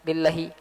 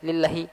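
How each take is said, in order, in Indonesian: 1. Vokal sebelum h dibaca pendek. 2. Vokal sebelum h dibaca pendek.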